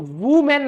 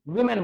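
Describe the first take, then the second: First: The first vowel sounds like 'oo'. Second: The first vowel sounds like 'ee'. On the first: The speaker calls it wrong. "इसको वुमेन नहीं बोलते हैं" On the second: The speaker calls it right. "विमेन बोलते हैं"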